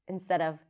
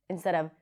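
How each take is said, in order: The two takes are said the same way.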